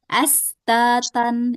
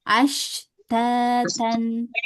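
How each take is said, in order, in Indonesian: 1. Konsonannya bunyi desis s. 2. Konsonannya bunyi sh yang menyebar. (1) "malah cuman desis. Astatan itu salah" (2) "Ash anginnya banyak"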